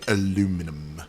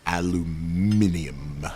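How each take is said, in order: First: The word ends in -inum, with four syllables. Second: The word ends in -inium, with five syllables.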